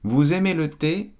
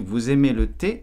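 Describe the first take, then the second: First: The voice falls at the end. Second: The voice rises at the end. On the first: It states a fact. "Ce n'est pas une question" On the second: It asks a question. "Il faut utiliser l'intonation pour monter"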